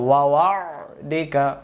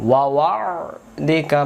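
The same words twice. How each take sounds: Both takes have the same delivery.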